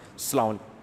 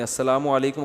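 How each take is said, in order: First: السلام علیکم clipped down to a quick "slam lik"; sloppy salaam. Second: السلام علیکم said in full, every syllable clear; proper salaam. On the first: Retold or imitated. Mufti mocking how people clip the salaam, clipped. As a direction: swallow most of السلام علیکم, mock-lazy. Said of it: "ساشے پیش کر رہے ہیں سلام". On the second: Shown as a demonstration. Mufti showing a questioner the correct salaam, careful. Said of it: "السلام علیکم ... کا صحیح تلفظ بتا دیں".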